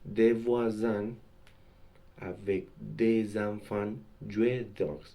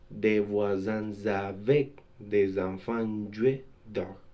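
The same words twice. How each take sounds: First: The s of voisins stays silent before avec. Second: The s of voisins links as z into avec. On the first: The speaker calls it right. "Entre deux groupes nominaux au pluriel" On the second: The speaker calls it wrong.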